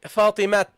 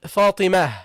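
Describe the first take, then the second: First: Fatima ending on a crisp t, "Fatimat"; final t sound. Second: Fatima closed on a breath of h; pausal ha ending. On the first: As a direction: say "Fatima" with the last letter sounded as t. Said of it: "No, you don't say". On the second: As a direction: say "Fatima" ending in h, as when stopping. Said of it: "pronounced as a ha when you stop". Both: Shown as a demonstration.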